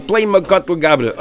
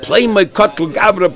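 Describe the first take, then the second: First: A hint of a dying man, slow and fading; lightly voiced dying man, slowing; dying man's words. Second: A hint of a dying man, higher and slow; mock dying gasp, raised and slowed; dying man's words. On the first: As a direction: let the repeat sink, drawn out. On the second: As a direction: lightly act the dying words, drawn out. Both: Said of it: "the words were coming out of his mouth as he was dying".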